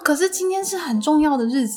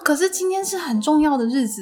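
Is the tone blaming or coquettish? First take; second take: blaming; blaming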